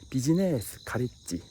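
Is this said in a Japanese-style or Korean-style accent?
Japanese-style. It is said with a Japanese katakana-style pronunciation. The speaker calls it wrong.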